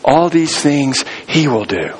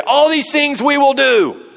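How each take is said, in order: First: Slow and settled, landing on "he"; All these things "he" will do, slowly, with weight on "he"; stress on he. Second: All these things we will do, said high and slow with "we" as the promise; a proud promise, high and drawn out; "we will do" sung out high as a confident vow; eager vow. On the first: Shown as a demonstration. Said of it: "They missed it by one letter". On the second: Retold or imitated. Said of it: "the people say".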